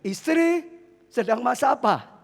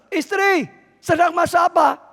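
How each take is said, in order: First: It is said at normal volume. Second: It is said loudly.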